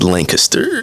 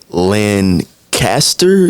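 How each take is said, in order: First: The name is run together as one word. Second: The name is said in separate, distinct parts. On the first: This is how local people say it. The speaker calls it right. "It's one word" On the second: This is how people from outside the area say it. The speaker calls it wrong. "if you're not from Texas, you're gonna say it Lancaster"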